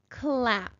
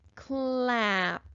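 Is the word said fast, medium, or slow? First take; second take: fast; medium. First: The word is said quickly as one unit. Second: The word is sounded out a bit faster. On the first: "And again, a little faster" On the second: "Let's sound it out again a little faster"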